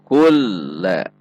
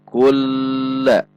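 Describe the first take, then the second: First: The l is held briefly, then released. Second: The l flows straight through without holding. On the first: The speaker calls it right. "huruf lam dibaca seperti mau berhenti kemudian terbaca kembali" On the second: The speaker calls it wrong. "bukan dibaca kulla"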